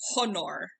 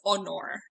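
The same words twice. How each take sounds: First: The word begins with an audible H sound. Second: The word begins with a vowel, H silent. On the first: The speaker calls it right. "actively coach myself into pronouncing it honor in Latin" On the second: The speaker calls it wrong. "I always just wanted to read it as honor"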